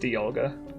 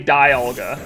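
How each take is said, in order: First: The first vowel is a short I sound. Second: The first vowel is a long I sound. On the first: The speaker calls it right. "I think it's a short eye. It's Dialga" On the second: The speaker calls it wrong. "I don't say Dialga. It's not a long eye"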